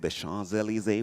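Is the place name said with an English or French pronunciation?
English. The name is said with an English-style pronunciation. The speaker calls it wrong. "we don't say"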